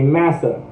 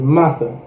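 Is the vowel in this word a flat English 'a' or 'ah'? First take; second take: flat a; ah. First: The vowel is a flat English-style 'a' sound. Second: The vowel is an open Hebrew-style 'ah' sound. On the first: This is the English-influenced way it came to be said. The speaker calls it wrong. "So we would say massa" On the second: This is the original Hebrew way, meaning oppressor. The speaker calls it right. "but in Hebrew it's massa"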